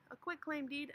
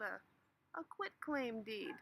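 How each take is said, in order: First: "a quit claim deed" higher, punching quit; emphatic repeat. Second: Drawn out. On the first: Shown as a demonstration. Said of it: "Yeah, that's right, a quit claim deed". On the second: Acted. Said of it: "Yeah, that's right".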